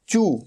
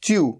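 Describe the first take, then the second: First: No y-glide comes before the vowel. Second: A y-glide comes before the vowel. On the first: The speaker calls it right. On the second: The speaker calls it wrong. "लगेगा ऐसे जैसे च्यू, च्यू नहीं"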